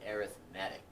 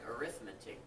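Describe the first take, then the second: First: The stress is on the third syllable. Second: The stress is on the second syllable. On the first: It is the adjective used when talking about sequences. "we pronounce it arithmetic" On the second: It is the usual noun reading of the word. "this word right here looks like arithmetic"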